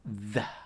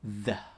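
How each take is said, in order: Both takes have the same delivery.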